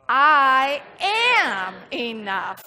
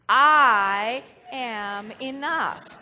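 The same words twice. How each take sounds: First: The word am carries the stress. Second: The word I carries the stress. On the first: "then we're going to put the emphasis on am" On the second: "we're going to put the emphasis on I"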